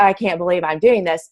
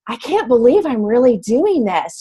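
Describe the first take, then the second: First: It sounds negative and dismayed. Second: It sounds positive and amazed.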